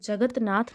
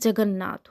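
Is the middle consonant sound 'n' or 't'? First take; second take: t; n. First: The middle consonant is a 't' sound. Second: The middle consonant is a doubled 'n' sound. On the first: The speaker calls it wrong. "जगतनाथ नहीं" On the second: The speaker calls it right. "जगन्नाथ होता है"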